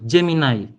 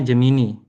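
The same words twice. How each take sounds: First: The name is said the English way. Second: The name is read as spelled in Indonesian.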